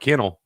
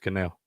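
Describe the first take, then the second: First: The name sounds like the word kennel. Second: The name sounds like the word canal. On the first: This is the plain, ordinary pronunciation. "He was probably Kennel until he got any money" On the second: This is a fancier pronunciation adopted later. "Now he's Canal"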